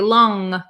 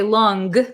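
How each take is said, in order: First: It ends in a nasal sound, no hard G. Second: It ends with a hard G sound. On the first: The speaker calls it right. "it's kind of a nasally sound" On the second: The speaker calls it wrong. "We don't say long"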